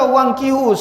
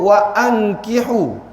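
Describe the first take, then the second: First: The words run together without a glottal stop. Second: A glottal stop separates the two words. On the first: The speaker calls it wrong. "dia tak boleh baca wangkihu, salah" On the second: The speaker calls it right. "mesti sebut wa ankihu"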